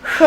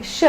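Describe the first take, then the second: First: "Sh" with the tongue back and up; retroflex sh. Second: Said in the usual way. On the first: Shown as a demonstration. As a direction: curl the tongue back for a darker "Sh". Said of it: "but make it back and up". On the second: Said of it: "like sh, but make it back and up".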